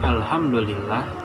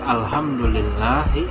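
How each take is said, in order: First: The word ends on a consonant, no vowel. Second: The word ends with a final i vowel.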